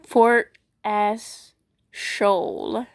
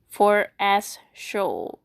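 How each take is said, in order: First: "Fort Ass Shoal" sounded out very slowly, ending in a questioning rise; puzzled reading. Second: "Fort Ass Shoal" said slowly again, ending on a flat falling tone; flat reread. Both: Real, not acted. It's supposed to be Fort A-Hole.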